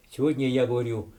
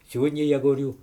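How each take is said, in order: Both takes have the same delivery.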